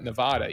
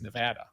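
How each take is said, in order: First: It is said with the East Coast pronunciation. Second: It is said with the local Nevadan pronunciation. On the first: The speaker calls it wrong. "some of us on the East Coast like to call it Nevada" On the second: The speaker calls it right. "even though it's Nevada"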